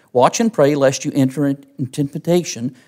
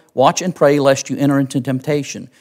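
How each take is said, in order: Both takes have the same delivery.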